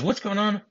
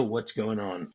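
First: High-pitched exasperated echo; mock exasperated echo. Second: Said in the usual way. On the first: Husband to his wife on the phone, exasperated echo. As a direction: throw the question back, pitched up. Husband echoes wife's demand.

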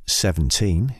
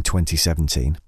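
First: "seventeen" said alone, dropping twenty, slowly; just "seventeen", drawn out slowly; City of Culture way. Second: Said in the usual way. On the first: Shown as a demonstration. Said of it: "if you wanna sound like one of the City of Culture team". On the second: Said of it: "if you wanna sound like".

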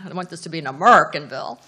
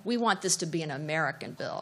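First: Put-on quick Texas accent, AMERICAN punched loud as "A-murr-kin"; brisk mock-Texan line, stress on AMERICAN; Lyndon Johnson. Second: Said in the usual way. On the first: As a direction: imitate a Texan drawing AMERICAN into "A-MURR-kin", hit hard. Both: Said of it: "or as in his accent".

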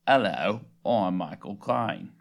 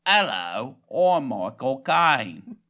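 First: Low, slow attempt at Cockney; unconvincing British star impression; Michael Caine. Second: Loud, nasal Cockney attempt, last words dragged out; exaggerated, nasal British star impression; nasal Michael Caine. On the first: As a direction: try a London actor, deep and drawn out. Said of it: "I think it's my turn". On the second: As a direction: push a London actor voice up into the nose. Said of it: "go a little more nasally".

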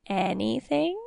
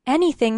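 First: "Anything" drawn out with a rising tune; probing question. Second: "Anything" higher, with a falling tune; eager assent. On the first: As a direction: stretch "Anything" into a sly question. King tests her promise with a question. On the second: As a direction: say "Anything" as a firm, keen promise. Elena eagerly agrees to the task. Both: Acted.

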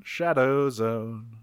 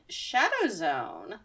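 First: Slow, deep trailer voice echoing the title; dramatic announcer. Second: Dramatic title. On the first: Co-host echoes the episode title in a slow trailer voice. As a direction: intone it like a movie trailer. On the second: Announcing episode title. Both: Pretend.

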